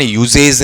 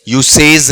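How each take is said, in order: First: It has a z sound and ends in -zej. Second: It has an s sound and ends in -sej. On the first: "इसका उच्चारण यूजेज नहीं है" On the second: "यूसेज नहीं है"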